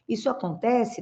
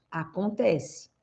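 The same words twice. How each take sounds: First: Rising question tune on acontece; "Isso acontece" lifted up at the end as a doubtful question; asking question. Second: "Acontece" slow with a settled falling tune; firm answer. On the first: Coach poses the viewer's question to herself, rising tune. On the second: Coach answers her own question, slow and falling. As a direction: answer it slowly, letting "Acontece" drop at the end. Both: Shown as a demonstration.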